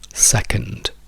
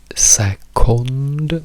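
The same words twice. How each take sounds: First: The second syllable has a reduced schwa vowel. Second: The second syllable has a full O vowel. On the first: It sounds native. The speaker calls it right. "dove la O della seconda sillaba diventa E" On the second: It makes the speaker sound foreign. The speaker calls it wrong. "noi non diciamo second"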